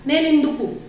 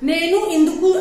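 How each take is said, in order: First: The first word drops its final vowel, said shortened. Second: The first word keeps its final vowel, said in full. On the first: The speaker calls it right. "नैन इंदुकु चाहिए" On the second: The speaker calls it wrong. "ऐसा नहीं"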